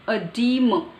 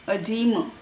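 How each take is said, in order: Both takes have the same delivery.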